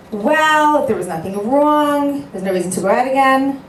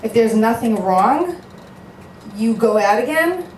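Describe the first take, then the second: First: High, loud, insistent retort to the friend. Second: Disbelieving echo, rising at the end; incredulous echo. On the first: Retold or imitated. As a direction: press the point hard, mocking the advice. Retold shadchan's pushy advice. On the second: Real, not acted. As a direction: repeat it as if it makes no sense. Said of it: "And what if you don't like him".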